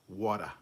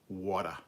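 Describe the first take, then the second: No difference in how they are said.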